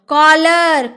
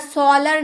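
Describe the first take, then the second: First: The word begins with a K sound. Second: The word begins with an S sound. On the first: The speaker calls it right. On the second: The speaker calls it wrong.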